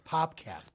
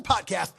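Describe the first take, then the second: First: "Popcast", pop in place of pod; corrected pronunciation. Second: Said in the usual way. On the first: Shown as a demonstration. Correcting the podcast's name, "Popcast" with a clear pop. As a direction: say "Popcast" with a p closing the first syllable. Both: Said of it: "not the podcast".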